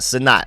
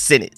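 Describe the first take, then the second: First: The first syllable sounds like 'suh', stress unclear. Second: The first syllable sounds like 'sin', stressed. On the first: The speaker calls it wrong. "not Sanat. I've been calling it Sanat" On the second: The speaker calls it right. "It's Sinnott"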